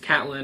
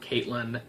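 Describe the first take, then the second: First: The first vowel sounds like the vowel in 'cat'. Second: The first vowel sounds like the vowel in 'Kate'. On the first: The speaker calls it right. "It's Catelyn" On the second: The speaker calls it wrong. "It's not Caitlyn"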